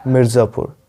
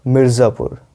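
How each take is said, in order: Both takes have the same delivery.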